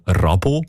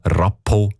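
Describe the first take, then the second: First: "Rabo" with a soft, voiced b. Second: "Rappo" with a hard, voiceless p. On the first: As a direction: say "Rabo" with a gentle b in the middle. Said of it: "mit einem weichen B". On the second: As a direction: say "Rappo" with a firm p in the middle. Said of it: "mit einem harten P". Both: Shown as a demonstration.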